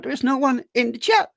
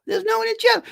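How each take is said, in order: First: Said in the usual way. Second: Very high, squeaky mock dismay; comic falsetto complaint; mock squeal. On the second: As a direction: squeak it out as a joke lament. Squeals repeat about empty chat.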